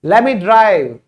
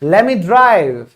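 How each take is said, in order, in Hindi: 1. 'Let me' को एक साथ जोड़कर 'lemme' की तरह बोला जाता है। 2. 'Let me' को एक साथ जोड़कर 'lemme' की तरह बोला जाता है।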